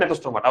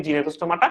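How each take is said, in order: First: নেথোস্টোমাটা said without the G, starting on N; silent G pronunciation. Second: জিনেথোস্টোমাটা said with the G sounded at the start; spelled G pronunciation. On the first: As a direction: drop the G, say নেথোস্টোমাটা. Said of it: "উচ্চারণ হচ্ছে নেথোস্টোমাটা". (জি বাদ দিয়ে নেথোস্টোমাটা উচ্চারণ) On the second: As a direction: sound out the G as written. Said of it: "English বানান লেখার সময় জিনেথোস্টোমাটা হবে". (বানান মতো জি সহ জিনেথোস্টোমাটা) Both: Shown as a demonstration.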